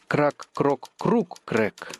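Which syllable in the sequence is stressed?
круг. The stress falls on the third syllable, круг.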